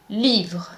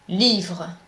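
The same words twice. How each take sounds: The two takes are said the same way.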